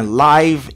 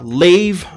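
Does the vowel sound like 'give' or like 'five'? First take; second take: five; give. First: The vowel glides, as in 'five'. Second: The vowel is short, as in 'give'. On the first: The speaker calls it right. "mais live ici" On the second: The speaker calls it wrong. "qui ne se prononce pas live"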